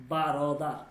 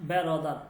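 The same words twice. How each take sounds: First: বারদার with an open "baa" first syllable; correct pronunciation. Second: বেরদার with "be" as first syllable; mispronunciation demo. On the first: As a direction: model বারদার opening on "baa", not "be". (বারদার, "বা" দিয়ে শুদ্ধ উচ্চারণ) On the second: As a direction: show the wrong form বেরদার, opening on "be". (বেরদার, "বে" দিয়ে ভুল উচ্চারণ) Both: Shown as a demonstration. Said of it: "not বেরদার".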